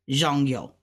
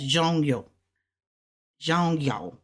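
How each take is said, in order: First: "zhong, yo" both falling; fourth tones. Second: "zhong, yo" run together quickly; said fast. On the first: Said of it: "fourth tones together". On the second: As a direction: blend "zhong, yo" fast into one word. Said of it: "So we're gonna say it fast". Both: Shown as a demonstration.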